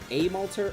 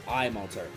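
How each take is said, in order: First: The first vowel sounds like "ay". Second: The first vowel sounds like "eye". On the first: "do I say the A like an A" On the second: "or an I?"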